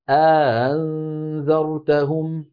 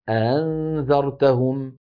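First: A long vowel precedes the softened second stop. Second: The second glottal stop is softened. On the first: "يدخل بين الهمزتين ألفا ليباعد بينهما" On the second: "بتسهيل الهمزة الثانية"

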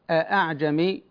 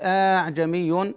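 First: The second glottal stop is fully pronounced. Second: The second glottal stop becomes a long vowel. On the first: "لا أقول أعجمي، لأن أعجمي الهمزة محققة" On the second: "ولا أقول أعجمي، يعني لا أبدل الهمزة ألفا"

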